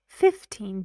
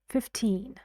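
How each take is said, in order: First: The stress is on the first syllable. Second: The stress is on the second syllable. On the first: "The stress got moved because this one is strongly stressed" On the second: "when I say the word alone, or at the end of a sentence, or before a pause"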